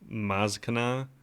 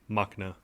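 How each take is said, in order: First: The name is said with a z sound. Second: The name is said without a z sound. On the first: "one of those tricky names where it's like" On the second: "No Z sound"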